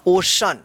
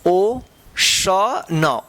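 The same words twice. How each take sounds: First: Said in the usual way. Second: ओशन very slow, broken into ओ, श, न; teacher sounding out ओशन slowly; syllable by syllable. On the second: Shown as a demonstration. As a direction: stretch out each part of ओशन with pauses. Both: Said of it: "क्या होगा".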